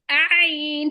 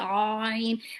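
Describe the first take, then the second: First: The mouth spreads wide, giving a lighter sound. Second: The mouth opens tall, giving a heavier sound. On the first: The speaker calls it right. "you have like a big smile on your face, you're like I" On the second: The speaker calls it wrong. "if your mouth is like more uh, uh, vertically opening, you will say I"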